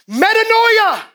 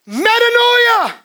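First: Metanoia thrown out high and loud; shouted metanoia. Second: Metanoia stretched slow, high and loud; drawn-out metanoia. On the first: Preacher proclaims metanoia to the church, loud and high. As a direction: cry it to the back wall. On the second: Preacher drags out metanoia for the church, slow and loud. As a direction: pull every syllable long. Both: Acted.

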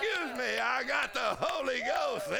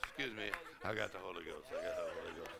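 First: Higher, proud, unashamed excuse me; excited apology. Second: Lower, softer, quick embarrassed excuse; sheepish apology. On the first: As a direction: announce it with joyful pride. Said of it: "you go". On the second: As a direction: murmur it fast, a bit embarrassed. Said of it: "You say". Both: Retold or imitated.

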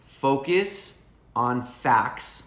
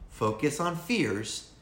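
First: Slow, each word weighed; stressed slowly. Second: Slow, falling on fears; stressed slowly. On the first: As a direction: spell out focus on facts slowly. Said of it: "and not on fears". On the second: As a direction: drag out focus on fears. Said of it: "and you are going to have a shit time". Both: Shown as a demonstration.

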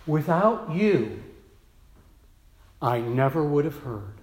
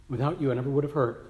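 First: Grateful quote. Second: Quick repeat. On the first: Nancy thanking her pastor, slow and tender. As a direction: say it slowly with gratitude. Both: Retold or imitated. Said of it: "she has said".

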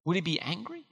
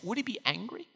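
First: Quiet repeat. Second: Softly wondering. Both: Shown as a demonstration.

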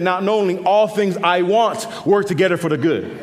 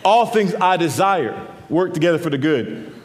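First: ALL stressed, the misquoted verse with a laugh. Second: ALL leaned on, the misquote said again; stress on ALL. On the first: Preacher mocking the congregation's misquote, ALL stressed. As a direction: lean on ALL in the twisted verse. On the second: Preacher repeating the misquote, leaning on ALL. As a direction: hit ALL, then let the line fall. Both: Shown as a demonstration. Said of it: "Sometimes we change that".

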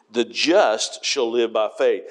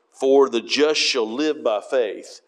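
First: Slow, leaning on the word just; stress on just. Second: Slow, landing the weight on faith; stress on faith. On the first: Preacher reading to the congregation, stressing just. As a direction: lean into just as the key word. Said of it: "The emphasis there is the word just". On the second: Preacher quoting Galatians, stressing faith. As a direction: let faith carry the line. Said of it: "Faith is the em-, emphasis here". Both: Shown as a demonstration.

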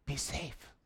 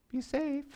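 First: Soft, timid "Be safe"; mock a fearful disciple's caution; timid mock whisper. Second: Mock timid. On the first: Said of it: "Andrew goes". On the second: Mocking timid advice.

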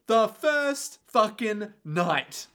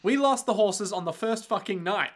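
First: First punched, slow and drawn out; stress on first. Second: Said in the usual way. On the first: Retold or imitated. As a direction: drag out first fucking night. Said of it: "repeated for emphasis". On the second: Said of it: "Carmilla literally is like".

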